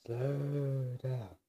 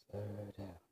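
First: Long stretched "slow", easing down; drawn-out self-calming. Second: Telling oneself to slow. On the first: Vlogger reining in own fast talk, drawn-out delivery. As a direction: stretch out each word deliberately. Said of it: "Am I talking fast?". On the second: Vlogger catching own fast talking, soft self-reminder. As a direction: murmur it softly to yourself. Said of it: "Am I talking too fast?". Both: Real, not acted.

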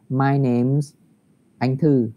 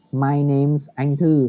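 First: My name's Anh Thư linked smoothly without pause; linked reading; read as one. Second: My name's Anh Thư said slowly as one run, name attached; slow joined demo. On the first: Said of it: "mình đọc liền như thế". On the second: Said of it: "mình ghép với tên của mình luôn". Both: Shown as a demonstration.

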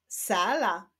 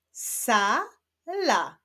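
First: Said in the usual way. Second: "Sala" as two drawn-out syllables with a gap; syllables held apart. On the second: Shown as a demonstration. Teacher joining syllables into words, "Sala" first read apart. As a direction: sound out "Sala" one long syllable at a time. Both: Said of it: "odczytajmy wyrazy poprzez połączenia sylab".

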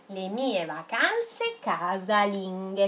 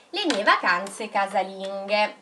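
First: Drawn out, word by word; slow dictation. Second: Said in the usual way. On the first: Shown as a demonstration. Teacher dictating to children writing along, slowly. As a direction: read it slowly so the pupils keep up.

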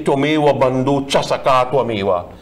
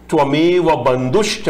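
First: "bandhu cha" said as two separate words, the common mistake; wrong version. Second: "bandhushcha" joined into one word with a clear "shcha"; correct version. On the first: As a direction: say "bandhu cha" loosely, the way most people get it wrong. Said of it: "Ninety-nine percent of us say it wrong". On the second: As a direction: carefully join "bandhushcha" as one word, the proper way. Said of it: "Nowhere that is written in the mantra". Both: Shown as a demonstration.

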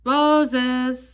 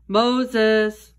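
First: Higher, longer call of the name; a voice calling from the bush; loud calling voice. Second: Loud voice. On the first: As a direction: call out Moses, drawing out the last sound. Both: A narrator's reading. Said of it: "said a loud voice".

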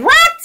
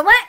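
First: High, loud shocked yelp; a sudden high cry of surprise; startled what. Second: Said in the usual way. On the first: Retold or imitated. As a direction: jolt up in disbelief. Startled reply to mother.

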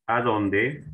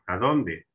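First: "A dónde" drawn upward like an open question; rising tune. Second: "A dónde" dropping at the end, settled; falling tune. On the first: Teacher presents the accented spelling to students, "A dónde" rising. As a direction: lift the end of "A dónde". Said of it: "¿A dónde con tilde?". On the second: Teacher presents the unaccented spelling to students, "A dónde" falling. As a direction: let "A dónde" fall on "dónde" to close the pair. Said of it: "El otro sin tilde". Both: Shown as a demonstration.

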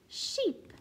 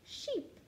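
First: "Sheep" said whole, sharply higher; blended word. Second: "Sheep" said whole, higher and softer; blended word. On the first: Teacher blending sheep for children. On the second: Teacher modelling the blended word sheep. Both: Shown as a demonstration. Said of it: "We can hear the E sound".

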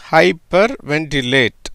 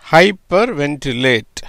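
First: Said in the usual way. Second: hyper ventilate said slowly, parts kept apart; slow demo. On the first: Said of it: "அப்படிங்கிற உச்சரிப்புல வருது". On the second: Shown as a demonstration. Teacher demonstrating the word to students, slow and careful. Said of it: "அதனால எப்படி வருது?".

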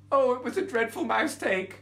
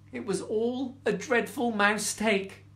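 First: Higher mouse voice saying mouse take. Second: Said in the usual way. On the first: Shown as a demonstration. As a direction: squeak out mouse take like the little mouse. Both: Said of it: "Like a mistake".

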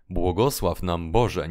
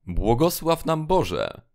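First: Said in the usual way. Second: Higher, lightly voiced call of a frightened sleeper; imitating a sleeper's cry. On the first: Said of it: "do ich". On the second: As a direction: mimic the guard crying out in his sleep. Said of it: "Jeden zawołał". (naśladowane wołanie śpiącego strażnika, wyżej)

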